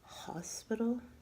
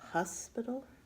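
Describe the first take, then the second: First: The first syllable has an 'o' vowel, like 'hoss'. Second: The first syllable has a 'u' vowel, like 'huss'. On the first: "instead of saying hospital" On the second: "it sounds like H U S instead of H O S"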